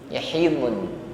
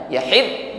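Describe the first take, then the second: First: The word ends with a clear final n sound. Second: The word ends at d with no final n. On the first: The speaker calls it right. "Maka tidak boleh dihilangkan bunyi nunnya" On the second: The speaker calls it wrong. "Bukan yahid berhenti di dot, tidak"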